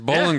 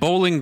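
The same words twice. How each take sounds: First: The first syllable sounds like 'bull', ending 'in'. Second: The first syllable sounds like 'bowl', fully enunciated. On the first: The speaker calls it right. "it's more like B-U-L-L-I-N" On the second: The speaker calls it wrong. "He said Bowling Green"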